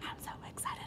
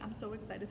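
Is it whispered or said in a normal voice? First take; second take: whispered; normal voice. First: It is said in a whisper. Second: It is said in a normal voice.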